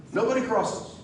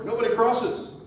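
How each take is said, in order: First: "Nobody" hit hard, then falling; stress on nobody. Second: "crosses" lifted high and leaned on; rally emphasis with "crosses" punched up; stress on crosses. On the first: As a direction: punch "Nobody" and let it drop. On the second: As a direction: land the weight on "crosses". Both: Real, not acted.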